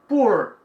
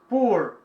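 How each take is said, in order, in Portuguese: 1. É pronunciada com sotaque americano. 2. É pronunciada com sotaque americano.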